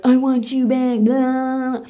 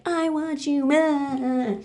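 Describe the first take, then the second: First: Loud, raised mocking whine; mock pleading ex-boyfriend. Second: Slow, high, drawn-out mock plea; mock pleading girlfriend. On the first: Ex-boyfriend turns up out of nowhere, loud mock pleading. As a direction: play an ex begging, hammed-up and loud. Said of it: "pulls up out of nowhere and is like". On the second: Girlfriend from Spain shows up, slow high mock pleading. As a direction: stretch out a hammed-up, high plea. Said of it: "shows up and is like".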